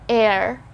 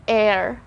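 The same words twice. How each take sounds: First: The word starts with a vowel sound. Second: The word starts with a vowel sound.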